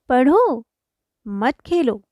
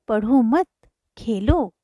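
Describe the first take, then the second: First: There is a pause after पढ़ो. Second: There is a pause after मत.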